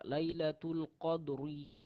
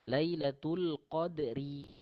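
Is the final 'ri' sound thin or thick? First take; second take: thick; thin. First: The final 'ri' is pronounced thick. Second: The final 'ri' is pronounced thin. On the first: The speaker calls it wrong. "Ri tebal. Sedangkan dia nipis" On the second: The speaker calls it right. "Ri nipis"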